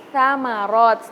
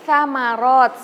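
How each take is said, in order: Both takes have the same delivery.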